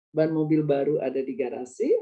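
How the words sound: Mobil baru is grouped together, after ban.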